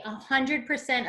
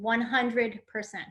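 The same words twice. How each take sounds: First: Said in the usual way. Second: "one hundred percent" said slowly, each word weighted; slow right down to stress every word of "one hundred percent"; emphatic repeat. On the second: Retold or imitated.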